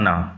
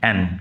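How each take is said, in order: First: The name ends in an open 'ah' vowel. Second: The name ends in an 'n' sound. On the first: This is the French pronunciation. "ফরাসি ভাষায় এই উচ্চারণ হচ্ছে আনা" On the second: This is the English pronunciation. "ইংরেজিতে আমরা উচ্চারণ করব অ্যান"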